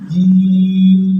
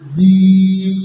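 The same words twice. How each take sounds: First: The first consonant is a clean j sound. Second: The first consonant has a buzzing z-like sound. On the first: The speaker calls it right. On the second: The speaker calls it wrong.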